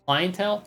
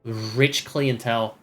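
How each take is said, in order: First: CLIENTELE said higher with a rising question tune; questioning repeat. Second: Said in the usual way. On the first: Real, not acted. Querying the word just read, questioning lift on "Clientele?".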